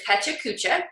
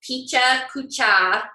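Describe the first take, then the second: First: The first syllable sounds like 'peh'. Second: The first syllable sounds like 'pih'. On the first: The speaker calls it right. "but it's Pecha Kucha" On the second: The speaker calls it wrong. "It's not Picha Kucha"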